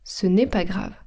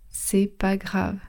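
First: Said in the usual way. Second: GRAVE po „C'est pas”, bez „ne”; wymowa potoczna. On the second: Shown as a demonstration. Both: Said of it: "Instead of ce n'est pas grave".

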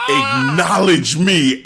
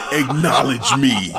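First: Slow, louder mock shout of the demand; imitating Roman, louder. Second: Measured, level quote of Roman; imitating Roman's demand. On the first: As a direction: stretch it out and push it harder the second time. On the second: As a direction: say it calmly, just laying down the demand. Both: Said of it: "when he started saying that again".

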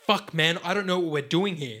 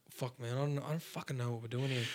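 First: Louder, crisp, trained Australian diction; enunciated Australian. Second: Broad Australian mumble. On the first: Shown as a demonstration. Showing the acting school version, crisp Australian diction. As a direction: open the mouth and articulate every word. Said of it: "But instead you're like". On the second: Retold or imitated. Mocking how he grew up talking, broad Australian mumble. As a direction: slur it like a lazy Aussie bloke. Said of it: "I grew up talking like".

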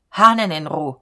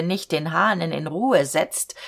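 First: Hahnen punched loud with falling tune; stress on Hahnen. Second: Said in the usual way. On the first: A narrator's reading. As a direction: hit Hahnen hard, clipped command. Robber repeats demand forcefully.

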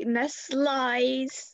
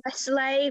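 First: "Nestle's" said as ness-LIES, long drawn out; punning mispronunciation. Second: Said in the usual way. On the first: Shown as a demonstration. Host calling out the company with a pun, "Nestle's" drawn out as ness-LIES. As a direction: stretch "Nestle's" so it ends in "lies". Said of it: "more like".

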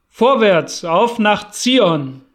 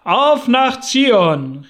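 First: Laut und langsam, Zion gedehnt; lauter Aufbruchsruf. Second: Sehr laut, höher und langsam, AUF betont; im Chor gerufen. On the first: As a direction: ruf die Karawane zum Aufbruch. Anführer ruft zum Aufbruch. (langsamer, lauter Ruf nach Zion) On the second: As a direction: ruf „Auf nach Zion!“ wie eine jubelnde Menge. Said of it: "riefen die Mormonen im Chor". (als Chor laut und hoch gerufen) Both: A narrator's reading.

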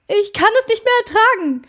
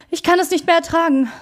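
First: High, loud, fast outburst of fear; desperate cry. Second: Higher, fast, fearful; anxious repeat. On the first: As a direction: break out in panic, much higher and louder. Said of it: "bin ich in ständiger Angst". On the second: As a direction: repeat it, less loud but still afraid. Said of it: "wiederholte er". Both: A narrator's reading.

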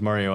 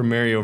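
First: Mario with first syllable like "mar"; broad A in Mario. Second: Mario with first syllable like "marry"; short A in Mario. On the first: Co-host asks which camp, Mario as MAR-ee-oh. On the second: Co-host asks which camp, Mario as MARE-ee-oh. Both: Shown as a demonstration. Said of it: "which camp are you in".

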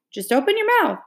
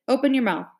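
First: Higher, pressing repeat; insisting. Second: Said in the usual way. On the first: A narrator's reading. Jess insisting Leslie open her mouth, higher. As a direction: push her to just do it.

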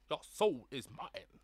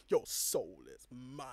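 First: Put-on Cambodian accent. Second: Low, slow menacing villain. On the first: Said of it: "He sounded really like ... Cambodian". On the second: Retold or imitated. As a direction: growl it slowly like a villain. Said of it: "standing up and being like".

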